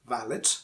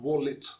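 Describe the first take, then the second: First: It begins with a lip-and-teeth V sound. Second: It begins with a rounded-lips W sound. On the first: The speaker calls it wrong. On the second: The speaker calls it right. "Wallet, wo, is uh, bilabial"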